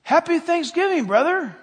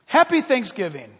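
First: Put-on high, loud child's greeting; much higher, hearty mimicked reply; imitated little granddaughter. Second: Lightly voiced, loud holiday greeting; hearty retold hello; imitated friendly gentleman. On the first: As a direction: holler it back like a small kid playing grown-up. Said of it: "And she said to him". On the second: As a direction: greet strangers heartily, a little raised in pitch. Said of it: "And he said to us".

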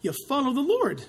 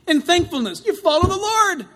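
First: Said in the usual way. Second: Emphatic refrain. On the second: Shown as a demonstration. Answer repeated louder as refrain.

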